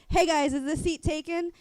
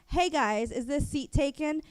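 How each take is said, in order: No difference in how they are said.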